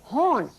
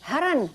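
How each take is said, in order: First: It is said plainly as one syllable. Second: It is said in an accent as two syllables. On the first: The word intended is horn. "he would say, horn, horn, meaning blow the horn" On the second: It sounds like the word for a deer. "But he said, haran, haran, which means a deer"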